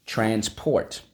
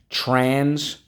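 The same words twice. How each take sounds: First: Said in the usual way. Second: "Transport" called out high and loud; modelled word. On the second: Shown as a demonstration. Teacher leading the class chant, "Transport" called out. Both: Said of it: "Let's go".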